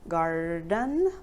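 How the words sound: The r sound in the middle is pronounced. "in American English it's garden"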